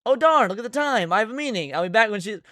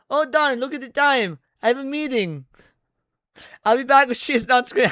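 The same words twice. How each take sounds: First: Said in the usual way. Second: Weak attempt at a Latina accent. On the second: Shown as a demonstration. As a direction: try a Latina accent, barely lands. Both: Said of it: "I can't do a Latina accent".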